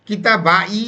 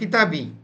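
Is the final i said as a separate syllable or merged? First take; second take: separate; merged. First: It ends in kitaba followed by a separate i. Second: The i merges into one smooth bi syllable. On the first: The speaker calls it wrong. "এটা বলাটা কেমন সুন্দর শোনা যায় না" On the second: The speaker calls it right. "এই জন্য কিতাবি আমার বই"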